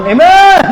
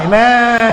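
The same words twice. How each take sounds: First: Loud, high-pitched mock yell; shouted amen. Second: Mock amen, drawn out and aimed sideways; amen thrown at others. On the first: Preacher mocking a woman yelling amen in church, high loud shout. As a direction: holler the amen at full voice. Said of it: "pangit kapag ikaw yung sisigaw". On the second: Preacher mimicking women whose amen is aimed at others, mock pointed drawl. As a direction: toss the amen pointedly at someone else. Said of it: "parang binabato sa iba".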